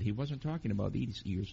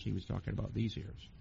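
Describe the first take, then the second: First: Said in the usual way. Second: Soft pointed stress on "these". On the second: Shown as a demonstration. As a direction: lean on "these", a bit softer.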